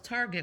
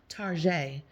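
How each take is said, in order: First: It is said with a plain English accent. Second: It is said with a put-on French accent.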